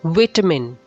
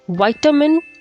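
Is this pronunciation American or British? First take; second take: British; American. First: It is said with a British pronunciation. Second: It is said with an American pronunciation. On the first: "This is British pronunciation" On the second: "is American pronunciation"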